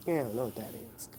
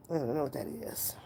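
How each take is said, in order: First: Low and hushed, rattled off fast; quiet, quick brush-off. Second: Fully whispered, no voice. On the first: Streamer brushing off a viewer's slang list, hushed. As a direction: mutter it quickly under your breath. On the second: Streamer repeating her brush-off to Josh, whispered. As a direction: breathe it out as a whisper. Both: Real, not acted.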